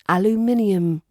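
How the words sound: It is said with a British accent. "In British English we say aluminium"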